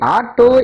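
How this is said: The word begins with an open 'aa' vowel. This is how people in Tamil Nadu say it. "தமிழகத்தில் முச்சக்கர வண்டியை ஆட்டோ என்பார்கள்"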